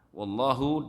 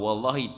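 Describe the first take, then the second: First: The word ends with an 'u' vowel. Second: The word ends with an 'i' vowel. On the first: It means 'and God'. "Wallahu dan Allah itu" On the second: It means 'by God', an oath. "kalau wallahi demi Allah"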